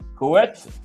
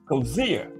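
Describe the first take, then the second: First: The name ends with a 'tsee' sound. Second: The name ends with a 'zeer' sound. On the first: The speaker calls it wrong. "I was saying Coetzee" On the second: The speaker calls it right. "Bruce Gas told me how to pronounce that"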